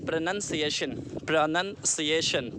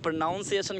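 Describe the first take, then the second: First: प्रोनाउंसिएशन said carefully as "pro-nun-ciation" with a short "nun"; correct pronunciation. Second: प्रोनाउंसिएशन said wrongly as "pro-NOUN-ciation" with an "ow" sound; wrong pronunciation. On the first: Teacher giving students the right form, प्रोनाउंसिएशन with "nun". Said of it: "हम इसको कहेंगे". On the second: Teacher showing students the usual mistake, प्रोनाउंसिएशन with "noun". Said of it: "तो ये प्रोनाउंसिएशन wrong है". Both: Shown as a demonstration.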